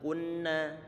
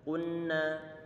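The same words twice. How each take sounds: Both takes have the same delivery.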